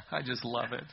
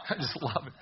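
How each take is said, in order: First: Said in the usual way. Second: Said through a chuckle; laughing. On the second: Real, not acted. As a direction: let the laugh spill into the words. Laughing after the cartoon joke.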